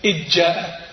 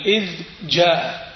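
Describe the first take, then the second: First: إذ جاء with the ذ merged into ج; the wrong way, ذ swallowed by جاء; dhal assimilated. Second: إذ جاء slow, the ذ clearly sounded; clear dhal, slowly. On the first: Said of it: "وليس". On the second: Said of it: "تقول". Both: Shown as a demonstration.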